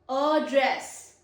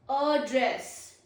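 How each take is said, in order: First: The stress is on the second syllable. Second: The stress is on the second syllable.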